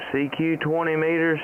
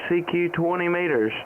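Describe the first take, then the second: No difference in how they are said.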